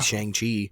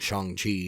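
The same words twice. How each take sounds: First: The name is said with an anglicized pronunciation. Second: The name is said with a Mandarin-like pronunciation. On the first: This is how people assumed it was said before the movie. The speaker calls it wrong. "everybody thought it was pronounced Shang-Chi" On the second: This is how it is said in the movie. The speaker calls it right. "in the whole movie he's saying Shang-Chi"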